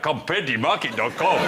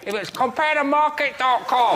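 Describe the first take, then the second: First: It is said in a put-on Nigerian accent. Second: It is said in a put-on Chinese accent.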